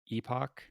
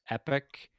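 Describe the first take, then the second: First: The second syllable sounds like 'pock'. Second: The second syllable sounds like 'pick'. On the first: "my brain does also want to say epoch" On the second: "I tend to lean towards epic"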